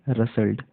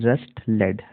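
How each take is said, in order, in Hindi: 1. t silent है, इसलिए शब्द एक साथ, सहजता से बोला जाता है। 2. t बोला जाता है, जिससे शब्द दो हिस्सों में बँट जाता है। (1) "यहाँ पर टी जो है साइलेंट है... सही प्रोनाउंसिएशन होगा रसल्ड" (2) "कई लोग इसको इस तरीके से पढ़ेंगे... जबकि ये रॉन्ग है"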